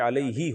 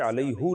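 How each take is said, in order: First: The word ends with an 'i' vowel. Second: The word ends with an 'u' vowel. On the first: This is the form expected by general grammar rules. "बल्कि अलैही होता है" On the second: This is the traditional recited form, differing from usual grammar. "अलैहु नहीं होता"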